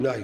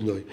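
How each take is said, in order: First: "נאי" with an open "ai", rhyming with "eye". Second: Put-on "נוי" with a rounded "oy", as in "boy". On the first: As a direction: say "נאי" with "ai", not "oy". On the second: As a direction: say "נוי" with "oy" instead of "ai". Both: Shown as a demonstration. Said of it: "לא להגיד נוי".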